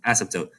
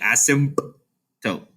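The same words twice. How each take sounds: First: The P sound is left out. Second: The P sound is clearly pronounced. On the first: The speaker calls it right. "the P is basically silent" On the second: The speaker calls it wrong. "you don't need to say asymptote"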